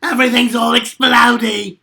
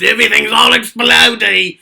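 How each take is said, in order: First: Loud, shouted Australian Junkrat; second take, Australian locked in; better Junkrat. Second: Loud Junkrat shout, not quite Australian yet; first take, Australian slipping; weak Junkrat try. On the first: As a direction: go full Aussie and blow it up. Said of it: "That was better". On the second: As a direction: shout it out, accent only half there. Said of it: "I don't think that was very good". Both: Shown as a demonstration.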